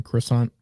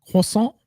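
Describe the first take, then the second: First: Said in the usual way. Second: "croissant" the French way, rising high; French pronunciation. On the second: Shown as a demonstration. Co-host offering a pastry, "croissant" pronounced in mock French. Repeats the word in French style.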